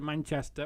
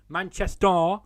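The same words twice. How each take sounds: First: It is said in a standard English accent. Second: It is said in a Mancunian accent.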